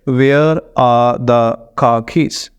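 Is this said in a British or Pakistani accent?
Pakistani. Every syllable gets roughly equal stress. "Pakistani accent में अगर पढ़े हम"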